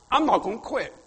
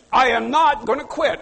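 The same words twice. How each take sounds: First: Said in the usual way. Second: "I am not gonna quit" with "not" stressed and "I am" said in full; emphatic repeat. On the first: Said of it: "just make up your mind". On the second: Shown as a demonstration.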